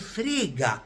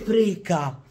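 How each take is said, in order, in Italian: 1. La consonante in mezzo è un suono G duro. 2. La consonante in mezzo è un suono K duro. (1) "con la G" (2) "Non si dice freca"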